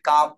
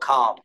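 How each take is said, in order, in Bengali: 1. প্রথম 'k' ধ্বনিতে কোনো বাতাসের ফুঁ নেই। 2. প্রথম 'k' ধ্বনিতে জোরালো বাতাসের ফুঁ আছে। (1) "আমরা বলতেছি কাম" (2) "ওরা বলতেছে না খাম"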